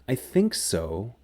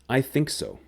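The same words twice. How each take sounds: First: The voice sounds hesitant and unsure. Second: The voice sounds confident and sure. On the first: The speaker is uncertain. "I think so is unsure" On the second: The speaker is certain. "I think so is sure"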